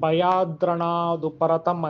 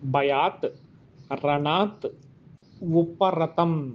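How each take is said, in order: First: The words are fused into one continuous word. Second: The words are said separately with full endings.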